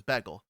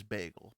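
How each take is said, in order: First: Bagel said as "beggle" with a short E; Jersey "beg-el". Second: Said in the usual way. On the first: Retold or imitated. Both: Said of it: "she says it with an E".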